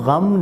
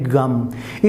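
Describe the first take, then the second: First: It is said with a standard Urdu pronunciation. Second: It is said with an Indian pronunciation. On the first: The speaker calls it right. "जो Indians हैं वो गम नहीं बोल सकते" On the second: The speaker calls it wrong. "वो क्या बोलते हैं"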